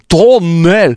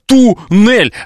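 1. Первый гласный звучит как 'o'. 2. Первый гласный звучит как 'u'. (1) "А как некоторые говорят" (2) "а я говорю, в туннель"

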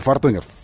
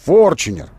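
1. Средний согласный — простой звук т. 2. Средний согласный — звук ч. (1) "Никогда не Фортунер" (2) "Форчунер называется автомобиль"

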